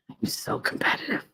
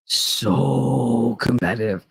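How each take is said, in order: First: Whispered admission. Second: Slow, lower So competitive, stretched; drawn-out repeat. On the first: Admitting to listeners she is competitive: whispered confession. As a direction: whisper I'm so competitive, breathy and soft. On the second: Repeating her confession to listeners: slow drawn-out. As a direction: savor the admission slowly. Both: Real, not acted.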